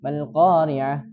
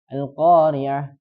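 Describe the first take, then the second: No difference in how they are said.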